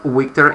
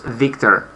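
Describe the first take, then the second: First: The word starts with a W sound. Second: The word starts with a V sound. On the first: The speaker calls it wrong. "It's not Victor" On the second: The speaker calls it right. "it's Victor. ... It's it's not a W. It's V"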